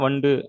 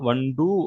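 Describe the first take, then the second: First: The final u is light and shortened. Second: The final u is pressed and said in full. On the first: "அந்த டூவை வந்து அழுத்தி சொல்ல மாட்டோம்" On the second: "முழுமையா சொல்றப்ப ... அந்த டூவை வந்து அழுத்தி எப்பயும் போல சொல்லணும்"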